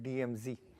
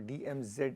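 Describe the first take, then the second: First: It is said with an American accent. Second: It is said with a British accent.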